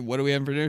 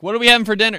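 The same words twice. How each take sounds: First: Said in the usual way. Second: Loud, higher, spelling it out for grandma; louder repeat for a deaf listener. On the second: Retold or imitated. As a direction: raise your voice so she hears.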